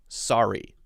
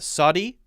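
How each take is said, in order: First: The middle consonant is an R sound. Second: The middle consonant sounds like a D. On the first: The speaker calls it right. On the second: The speaker calls it wrong.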